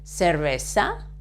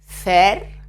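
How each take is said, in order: First: It is said in a Latin American accent. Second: It is said in a northern Spain accent.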